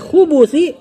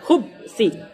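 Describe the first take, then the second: First: The word is said with three syllables. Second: The word is said with two syllables. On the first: It refers to male and female devils. The speaker calls it right. "Kalau dibaca khubusi, dan ini lebih benar" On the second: It refers to vile, evil things. The speaker calls it wrong. "Itu kalau dibaca khubsi"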